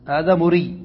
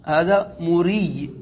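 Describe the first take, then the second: First: Said in the usual way. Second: هذا مري said very slowly, each word drawn out; slow demo reading. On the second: Shown as a demonstration. (نطق بطيء جدا لهذا مري) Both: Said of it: "فتقول".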